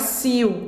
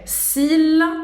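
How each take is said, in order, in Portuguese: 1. A palavra termina com um som vocálico parecido com W. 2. A palavra termina com um som de L claro. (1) "Não é s'il, como em português, não, o L não tem som de U" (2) "a gente vai pronunciar o L"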